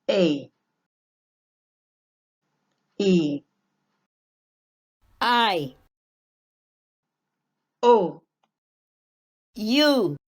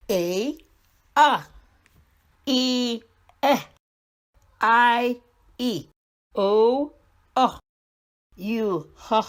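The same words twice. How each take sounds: First: Each vowel said as its letter name, louder, with long pauses. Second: Each vowel said with its short sound, twice, a little higher. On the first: Teacher modelling long vowel names for the class. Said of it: "Long vowel says its name". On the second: Teacher drilling short vowel sounds for young readers. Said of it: "Short vowel sounds". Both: Shown as a demonstration.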